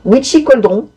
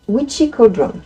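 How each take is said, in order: First: The name is said with a French accent. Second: The name is said with an English accent. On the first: "si on le prononce à la française" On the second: "vous avez vu l'accent un peu? Formidable"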